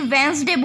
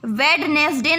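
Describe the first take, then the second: First: The d is silent, giving two syllables. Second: Every letter is sounded, including the d. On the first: The speaker calls it right. "इसे वेंसडे बोलते हैं" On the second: The speaker calls it wrong. "इसमें डी silent होता है, ... वेडनेसडे ना बोल करके"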